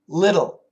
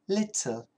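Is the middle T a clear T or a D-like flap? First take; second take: flap; clear T. First: The middle T is a quick D-like flap. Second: The middle T is a clear T sound. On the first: "usually we say little ... it actually sounds like a D" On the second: "the British people love to keep that T sound"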